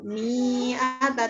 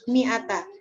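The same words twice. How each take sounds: First: A vowel is drawn out long. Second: All the vowels are said short. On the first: The speaker calls it wrong. "Tidak dibaca panjang" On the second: The speaker calls it right. "pendek semua"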